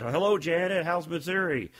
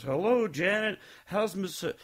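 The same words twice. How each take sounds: First: Said in the usual way. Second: "Hello, Janet" pitched high, "Janet" lifting at the end; higher, lilting copy of someone saying "Hello, Janet"; imitated intonation. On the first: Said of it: "the way you say it". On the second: Actor trying to copy the speaker's voice, lilting up on "Janet". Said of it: "do my voice".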